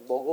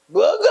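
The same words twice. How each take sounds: First: It is said softly and warmly. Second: It is shouted harshly and loudly. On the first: The speaker is kindly offering food. "얼마나 다정스러워" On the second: The speaker is scolding or ordering. "뭐 이렇게 하잖아 우리가 소리 지를 때"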